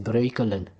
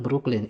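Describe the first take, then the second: First: The name is said with a Dutch pronunciation. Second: The name is said with an American pronunciation. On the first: The speaker calls it right. "it's Breukelen" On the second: The speaker calls it wrong. "It's not Brooklyn"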